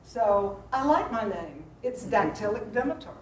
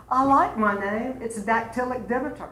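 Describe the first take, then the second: First: Teacher spelling out the dactylic beat; meter demo. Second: Lightly voiced actress answering a talk-show host; Stephanie's quip. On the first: Shown as a demonstration. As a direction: scan the line out for the class. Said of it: "what she meant was". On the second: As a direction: toss off the name line like a witty guest. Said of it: "And she said".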